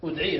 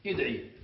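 First: ادعي opened with a short u, udʕii; teacher's model udʕii for ادعي; initial damma. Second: ادعي opened with a short i, idʕii; lower-pitched model idʕii for ادعي; initial kasra. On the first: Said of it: "تراعي الأصل". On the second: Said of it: "الأصل أن نكسرها". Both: Shown as a demonstration.

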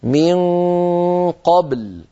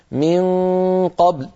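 First: قبل, bounced ب then a clear ل; من قبل with a full ل at the end; clear lam after qalqala. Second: قبل with the ل nearly gone, ending on ب; من قبل, ل swallowed after a bounced ب; dropped lam. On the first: Shown as a demonstration. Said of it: "هكذا". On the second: Retold or imitated. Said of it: "وكأن اللام لم تعد موجودة أو خرجت ضعيفة".

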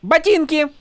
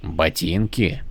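First: High, imperious one-word demand; mock Horneater accent. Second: Low, slow, puzzled question; lost for words; baffled soldier. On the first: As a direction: demand the boots grandly. Shallan demands the boots. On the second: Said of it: "наконец переспросил". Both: A narrator's reading.

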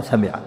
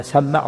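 First: سمع with a short m and i: sami'a; single-m variant. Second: سمع with a long double m: samma'a; doubled-m variant. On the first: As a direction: lighten سمع to 'sa-mi-a'. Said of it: "بالتخفيف سمع سامع". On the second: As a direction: lean on the m in سمع, 'samma-a'. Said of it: "وروي سمع وروي سمع". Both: Shown as a demonstration.

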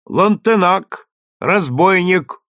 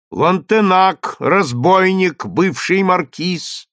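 First: Slow, loud and higher, like a trumpet; booming crier. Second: Booming crier. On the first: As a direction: boom each word out like a trumpet. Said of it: "Голос глашатая гремел теперь как труба". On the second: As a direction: boom it out again like a trumpet. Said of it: "гремел теперь как труба". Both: A narrator's reading.

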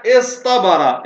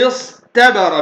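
First: اصطبر as iṣ-ṭabara, with a heavy ṭ; ta turned ṭa. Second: اصطبر as iṣ-tabara, with a light t; original ta pronunciation. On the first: Teacher gives another example, heavy ṭ in اصطبر. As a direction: make the t in اصطبر emphatic after ṣad. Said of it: "أبدلت التاء طاء لوجود الصاد". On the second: Teacher shows the underlying form, light t in اصطبر. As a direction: keep a plain t after ṣ in اصطبر. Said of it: "أصلها اصطبر بالتاء". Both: Shown as a demonstration.

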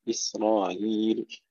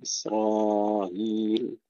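First: إسرائيل with shorter aa before the softened hamza; shortened aa, eased hamza in إسرائيل; short madd. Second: Slow إسرائيل, long aa before a softened hamza; drawn-out aa, eased hamza in إسرائيل; medium madd. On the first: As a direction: recite إسرائيل keeping the raa's aa brief. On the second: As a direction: recite إسرائيل holding the raa's aa at middle length. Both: Shown as a demonstration. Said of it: "مع التوسط والقصر".

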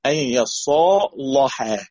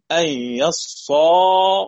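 First: "يصالحا" slow, with a thick, dark l; heavy lam. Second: "يصالحا" slow, with a thin, light l; light lam. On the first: Teacher recites other Warsh reading, heavy lam. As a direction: stretch "يصالحا", tongue back on a heavy l. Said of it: "قرأ بتفخيم". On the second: Teacher recites one Warsh reading, light lam. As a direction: stretch "يصالحا", keeping the l and its vowel fronted. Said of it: "اللام وبترقيقها". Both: Shown as a demonstration.

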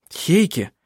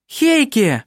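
First: Said in the usual way. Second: High, delighted cry of his name; joyful exclamation; excited. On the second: A narrator's reading. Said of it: "восторженно воскликнула она".

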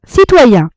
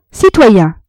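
First: Louder call out. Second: Calling out. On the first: Compin calling louder. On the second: Compin calling for attention. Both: A narrator's reading.

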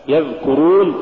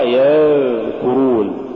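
First: Said in the usual way. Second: يذكرون with the ذ held far too long; overdone dhal. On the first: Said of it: "الصواب يذكرون". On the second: Shown as a demonstration. Teacher showing what not to read, overlong ذ in يذكرون. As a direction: drag out the ذ in يذكرون. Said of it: "هو عدم الإفراط".

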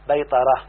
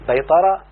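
First: بيطرة said "baytarah", not rising; noun form. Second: بيطرة said "baytara", rising at the end; verb form. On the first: Teacher answering with the noun, بيطرة as settled "baytarah". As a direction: say بيطرة as BAY-ta-rah, closed off. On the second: Teacher citing the verb before its noun, بيطرة as rising "baytara". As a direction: say بيطرة as BAY-ta-ra, left open. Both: Shown as a demonstration.

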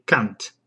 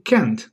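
First: "can't" with a broad ah, English style; lower, English "can't" with an ah vowel. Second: "can't" with the flat a of "can"; American "can't". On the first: Showing the genius English approach, English "can't". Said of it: "the English accent approach to this word". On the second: Contrasting accents for listeners, American "can't". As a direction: say "can't" to rhyme with "ant". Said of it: "They don't say". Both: Shown as a demonstration.

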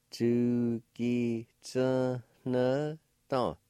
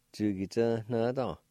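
First: "Chu ki tsu ne dong" stretched very slowly; drawn out for a learner to copy; very slow demo. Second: Said in the usual way. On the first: Shown as a demonstration. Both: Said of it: "like this".

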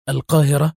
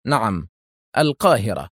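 First: Higher, rising, eager question; eager cry. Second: Composed, falling confirmation; calm. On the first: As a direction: ask back eagerly, lifting at the end. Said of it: "هتف في لهفة". (هتاف بلهفة) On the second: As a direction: confirm it evenly, settling downward. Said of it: "أومأ أدهم برأسه إيجابا في هدوء وقال". (بهدوء وثقة) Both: A narrator's reading.

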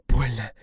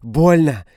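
First: Pained whimper. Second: Much higher, louder cry of pain; woman screaming in pain. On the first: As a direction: whine it out in pain. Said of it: "хнычет Дина". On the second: Dina crying out in pain. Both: A narrator's reading.

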